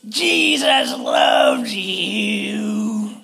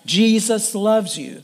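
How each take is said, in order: First: It is screamed in a hostile, angry tone. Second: It is said in a calm, plain tone. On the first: The words are delivered without love. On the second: The words simply state the truth.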